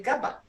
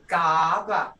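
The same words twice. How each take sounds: First: "gaba" said with the wrong tone. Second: "gaba" with the right tone, falling; correct tone. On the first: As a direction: model the mistake on "gaba". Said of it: "You have to say gaba". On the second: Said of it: "Hear that tone?". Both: Shown as a demonstration.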